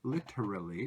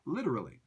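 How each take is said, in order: First: Every syllable is pronounced fully and clearly. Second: The syllables are reduced and run together quickly. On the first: "if you pronounce it super clearly" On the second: "native English speakers say"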